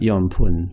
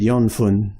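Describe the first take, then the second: First: The second syllable begins with a p sound. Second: The second syllable begins with an f sound. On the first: The speaker calls it right. "would be how you would say it naturally" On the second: The speaker calls it wrong. "people would understand you"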